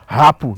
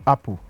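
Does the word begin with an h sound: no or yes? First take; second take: yes; no. First: The word starts with a breathy h sound. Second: The word starts cleanly with no h sound. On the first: "I will breathe now. You see that H is there" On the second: "H is not there"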